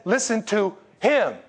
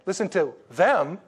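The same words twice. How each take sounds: First: "him" stressed, slow and falling; slow, emphatic "Listen to him" with the weight on "him". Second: "them" leaned on, drawn out and falling; slow, deliberate "Listen to them" with the weight on "them"; stress on them. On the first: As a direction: land hard on "him", the one that matters. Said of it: "He said". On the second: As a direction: hit "them" slowly with a falling tune. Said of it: "He said, "Listen to him". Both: Shown as a demonstration.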